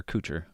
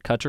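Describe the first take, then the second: First: Kutcher said KOO-cher, first vowel as in "coo"; long-oo pronunciation. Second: Kutcher said KUH-cher, first vowel as in "cut"; short-u pronunciation. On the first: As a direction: offer Kutcher with a long "oo" sound. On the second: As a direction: offer Kutcher with a short "uh" sound. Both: Shown as a demonstration. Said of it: "How do you say his last name?".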